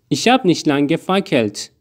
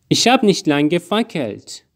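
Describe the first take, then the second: No difference in how they are said.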